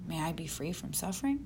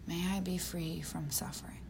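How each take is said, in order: First: It is said like a question, rising. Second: It is said like a statement, falling. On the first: It asks whether the wish may come true. The speaker calls it wrong. "not asking a question ... No" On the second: It offers the wish to oneself. The speaker calls it right. "It's offering yourself"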